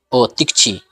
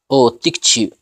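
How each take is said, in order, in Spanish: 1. El sonido final de la u se omite por completo. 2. El sonido final de la u es muy suave, se va desvaneciendo. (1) "quitando absolutamente el sonido de la letra U" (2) "podemos decirlo muy suavecito, que se vaya perdiendo el sonido de la letra U"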